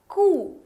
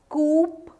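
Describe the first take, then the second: First: No p sound is heard at the end. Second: A p sound is heard at the end. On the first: The speaker calls it right. "The P in the end is silent" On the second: The speaker calls it wrong. "as the name says, or what? No, it's not coup"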